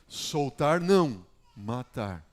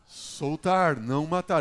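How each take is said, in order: First: The pause comes after 'não'. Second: The pause comes before 'não'.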